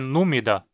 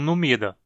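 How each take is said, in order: First: The stress is on the first syllable. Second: The stress is on the second syllable. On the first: The speaker calls it right. "a pronúncia é númida" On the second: The speaker calls it wrong. "e não numida"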